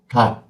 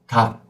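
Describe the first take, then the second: The two takes are said the same way.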